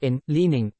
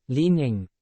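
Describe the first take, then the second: First: Said in the usual way. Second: Leaning with a firm first syllable LEE and a light ning; stress on LEE. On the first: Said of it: "the stress falls on the first syllable". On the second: Shown as a demonstration. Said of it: "Say it with me".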